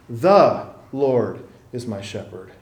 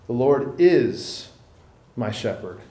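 First: The stress falls on 'the'. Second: The stress falls on 'is'.

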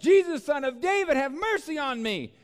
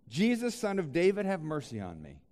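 First: It is cried out loudly and intensely. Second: It is read calmly at normal volume.

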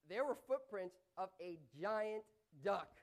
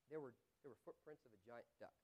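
First: The sentence is said in an amazed, surprised tone. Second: The sentence is said in a plain, neutral tone.

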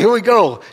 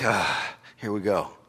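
First: It is said eagerly and cheerfully. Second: It is said reluctantly, with a sigh.

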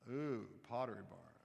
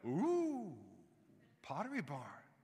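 First: It sounds bored and unimpressed. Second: It sounds excited and delighted.

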